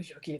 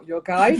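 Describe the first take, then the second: First: Guide is pronounced the French way, like 'geed'. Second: Guide is pronounced the English way, like 'gide'. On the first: The speaker calls it wrong. "sorry, I'm speaking French now" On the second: The speaker calls it right. "it's the same word but different pronunciation"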